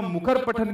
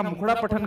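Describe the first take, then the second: First: Said in the usual way. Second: मुखर said wrongly as मुखड़ा, with a flapped ṛā ending; mispronounced word. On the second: Shown as a demonstration. Teacher shows students a misreading, mispronouncing मुखर as मुखड़ा. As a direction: swap the final r of मुखर for ड़ा: मुखड़ा. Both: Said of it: "मुखर पठन की जगह मुखड़ा पठन कर दूं".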